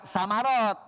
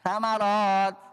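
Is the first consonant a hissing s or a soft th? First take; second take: hissing s; soft th. First: The first consonant is a hissing s sound. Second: The first consonant is a soft th sound. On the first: The speaker calls it wrong. "Jangan samarot ya" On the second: The speaker calls it right. "Jangan berdesis"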